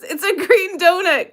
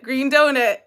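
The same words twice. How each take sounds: First: Laughing. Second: Said in the usual way. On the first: Real, not acted. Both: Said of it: "they literally named what the picture is".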